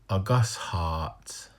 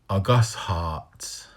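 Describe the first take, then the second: No difference in how they are said.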